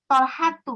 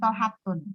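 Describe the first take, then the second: First: The name ends in a bare -u sound. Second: The name ends in an -un sound. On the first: The speaker calls it right. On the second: The speaker calls it wrong.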